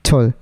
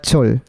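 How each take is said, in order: First: The consonant is aspirated with a puff of air. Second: The consonant is aspirated with a puff of air.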